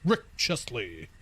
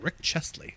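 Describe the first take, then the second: First: It is said in a bold, chesty voice. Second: It is said in a plain, casual voice.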